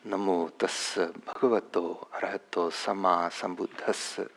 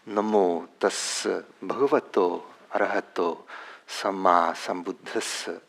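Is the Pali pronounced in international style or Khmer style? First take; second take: international; international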